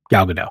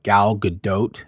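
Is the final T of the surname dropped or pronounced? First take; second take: dropped; pronounced. First: The final T of the surname is dropped. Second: The final T of the surname is pronounced. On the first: "it's just easier for me not to pronounce that T at the end" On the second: "I was corrected by by Laura, and apparently it's it's like Gal Gadot"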